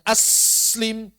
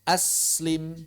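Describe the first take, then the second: First: The s sound is stretched out long. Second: The s sound is full but kept short. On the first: The speaker calls it wrong. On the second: The speaker calls it right. "Satu harokat tetap satu harokat, cuma full"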